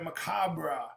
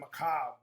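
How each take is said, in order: First: The word ends with a final R sound. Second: The word ends on the B sound. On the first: "she said macabre" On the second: "I've always said macabre, but I kind of left the R E out"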